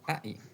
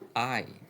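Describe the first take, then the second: First: The two vowel sounds are cut apart. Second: The first vowel glides smoothly into the second. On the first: The speaker calls it wrong. "It is not a cut pronunciation. You do not say I" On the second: The speaker calls it right. "the first sound flows into the second"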